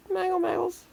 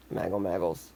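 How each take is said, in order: First: High cat call. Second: Said in the usual way. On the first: Real, not acted. Calling the cat, high take.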